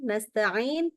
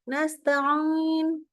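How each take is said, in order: First: The ain comes out through the mouth. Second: The ain comes out through the nose. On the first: The speaker calls it right. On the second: The speaker calls it wrong.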